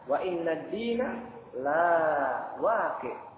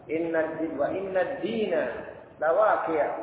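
First: The vowel after the L is long. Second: The vowel after the L is short. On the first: The recompense will not happen. The speaker calls it wrong. "Jangan sampai seorang membaca panjang" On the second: The recompense will surely happen. The speaker calls it right. "lam di sini dibaca pendek"

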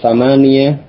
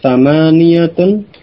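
First: The word ends without the case ending. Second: The word ends with the full case ending.

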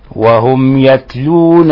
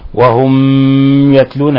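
First: The meem is said lightly and clearly. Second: The meem is pressed hard. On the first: The speaker calls it right. "هذا هو تحقيقها" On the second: The speaker calls it wrong. "نضغط على الميم ... هذا خطأ"

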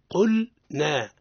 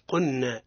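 First: The L is pronounced clearly before the N. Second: The L is merged into the following N. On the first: The speaker calls it right. "نعيد الآية. وإذ قلنا" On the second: The speaker calls it wrong. "ما قلش قلنا، هذا خطأ"

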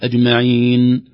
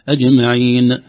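First: The final nun ends with a nasal hum. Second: The final nun ends with an echoing bounce. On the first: The speaker calls it right. "ليس فيها قلقلة بل فيها غنى" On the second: The speaker calls it wrong. "البعض يقول"

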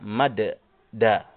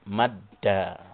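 First: The two d sounds are split into separate syllables. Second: The d is said as one held double sound. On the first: The speaker calls it wrong. "ala maqta'aini hakadha" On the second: The speaker calls it right. "yang paling fasihnya adalah dengan dibaca dengan menggunakan tasdid"

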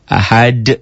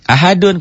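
First: The final d is stopped with an echoing bounce. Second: The word ends with a full -dun syllable. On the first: The reader stops on this word. "Kalau dihentikan membacanya" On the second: The reading continues without stopping. "kol-kolah? Bukan"

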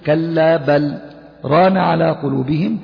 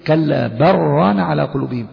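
First: The L is kept, followed by a slight pause. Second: The L merges into the R without a pause. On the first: "وإذا سكت تقول" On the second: "عندما تقول كلا برانا يبقى هنا أضغمت"

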